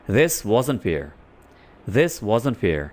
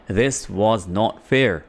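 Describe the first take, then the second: First: "wasn't" run together at natural pace; fluent contraction. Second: "was not" said as two slow, separate words; slow, full form. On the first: Teacher showing learners the fluent form, quick and natural. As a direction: say it smoothly, like a native speaker. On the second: Teacher drilling the full form for students, slow and deliberate. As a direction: spell out every word, slowly, for learners. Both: Shown as a demonstration. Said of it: "अब was not को हम fluently बोलने के लिए".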